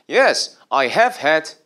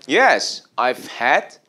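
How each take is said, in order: First: 'I have' is said as two full words. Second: 'I have' is joined into contracted 'I've'. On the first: The speaker calls it wrong. "어색함이 느껴지기도 해요" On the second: The speaker calls it right. "앞으로 그냥 붙여버려서 ... 발음도 여러분 듣기에도 훨씬 낫죠"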